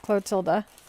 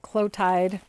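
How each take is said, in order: First: The name ends on a vowel sound. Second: The name ends on a consonant sound. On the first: The speaker calls it right. "but it's Clotilda" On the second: The speaker calls it wrong. "a lot of people just pronounce it Clotide"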